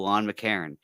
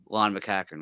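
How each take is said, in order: First: The surname has no k sound in the middle. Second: The surname has a k sound in the middle. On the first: This is how the name is said on the show. "he pronounces it, and they pronounce it on the show" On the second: This is how locals in Nova Scotia say the name. "down here in Nova Scotia, what we'd say, we'd call it McCackern"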